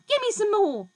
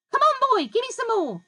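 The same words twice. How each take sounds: First: High, loud greedy cry; screechy demand. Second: High, loud greedy yell, "give" hit hard. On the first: Grandma screeching at George for more medicine. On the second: Grandma yelling at George for another dose. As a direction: bellow for more. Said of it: "she yelled". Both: A narrator's reading.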